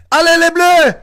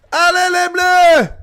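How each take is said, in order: First: Shouted French cheer. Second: Slow drawn-out chant of Allez les Bleus; chanted cheer. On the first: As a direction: chant it for the team. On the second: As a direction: stretch it like a stadium chant. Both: Real, not acted.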